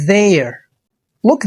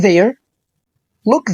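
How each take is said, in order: Both takes have the same delivery.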